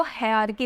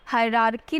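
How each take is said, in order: First: हायरार्की as hai-aar-kee, first r dropped; correct pronunciation. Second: हायरार्की with an r between hai and aar; wrong pronunciation. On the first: Teacher giving students the right reading, हायरार्की as hai-aar-kee. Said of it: "हायरार्की पढ़ते हैं". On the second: Teacher showing the reading to avoid, हायरार्की as hai-raar-kee. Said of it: "हायरार्की नहीं पढ़ते इसको". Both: Shown as a demonstration.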